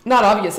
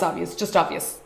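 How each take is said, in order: First: "not obvious" pushed out louder; "not obvious" said louder and weighted; stress on not obvious. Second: Said in the usual way. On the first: Shown as a demonstration. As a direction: lean hard on "not obvious". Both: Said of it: "And when I say obvious, I mean".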